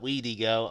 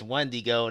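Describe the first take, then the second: First: The first syllable has no n sound. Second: The first syllable has an n sound. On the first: The speaker calls it wrong. "not Weedigo" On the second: The speaker calls it right. "it was Wendigo"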